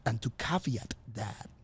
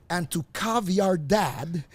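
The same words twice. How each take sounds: First: "caveat" said as KA-vee-at, stress on the first syllable; captain's smooth "caveat", ending in -at; correct caveat. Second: "caviar dad" said slowly, KA-vee-ar like fish eggs; drawn-out "caviar dad" in place of caveat; mispronounced caveat. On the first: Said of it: "And he goes like". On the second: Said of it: "I'm like". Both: Retold or imitated.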